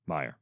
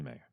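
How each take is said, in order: First: "Meyer" said as MY-er; "Meyer" rhyming with "fire", low and soft; corrected pronunciation. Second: "Meyer" said as MAY-er; "Meyer" rhyming with "layer"; mispronounced Meyer. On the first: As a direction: quietly correct it to "Meyer" with an EYE vowel. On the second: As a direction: say "Meyer" with an AY vowel, like "mayor". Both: Real, not acted.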